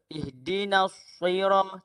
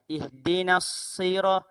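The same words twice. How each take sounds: First: The s sound has no hiss. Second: The s sound has a clear hiss. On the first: The speaker calls it wrong. "Tidak ada desiran" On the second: The speaker calls it right. "dia ada desiran"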